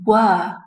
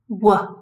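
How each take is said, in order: First: It is said with a full vowel. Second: It is said with a reduced schwa vowel. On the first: "were is the strong form" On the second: "were is the weak form"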